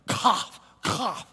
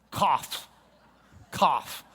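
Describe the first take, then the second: First: Whispered, coughed Cough, cough; breathy coughed Cough. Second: Cough-like spoken Cough; mimed cough. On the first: Teacher acting out the Kaf memory trick, coughed whisper. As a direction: push Cough out of an open mouth like a real cough. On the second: Teacher showing the class how to remember Kaf, coughed word. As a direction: say Cough as if coughing, mouth wide open. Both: Shown as a demonstration. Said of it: "that's the open mouth coughing".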